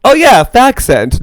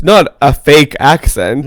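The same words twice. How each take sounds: First: "fag scent" said as two words, a hard g then "scent"; playful correction saying "fag scent" deliberately; fag scent pronounced. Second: "fake accent" with the long a and a k, then "accent"; correcting a mishearing, "fake accent" spelled out in sound; fake accent pronounced. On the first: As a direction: split it clearly into "fag" and "scent", slower. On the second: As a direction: say "fake accent" clearly, slower, as the contrast. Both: Shown as a demonstration.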